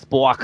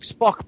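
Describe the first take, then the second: First: The word is said in a New York accent. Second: The word is said in a plain accent.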